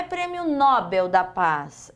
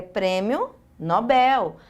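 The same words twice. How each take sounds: First: Nobel stressed on the first syllable, NO-bel; wrong prosody. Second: Nobel stressed on the last syllable, no-BEL; correct prosody. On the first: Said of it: "não é prêmio Nobel da Paz". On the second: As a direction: slowly land the stress on the end of Nobel. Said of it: "é prêmio Nobel". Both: Shown as a demonstration.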